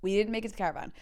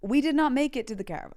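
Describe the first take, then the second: First: Said in the usual way. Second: "did not make it" high, loud and emphatic; dramatic reveal. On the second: Real, not acted. Storyteller to dear listener, "not" hit high and loud. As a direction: announce "not" as a comic confession.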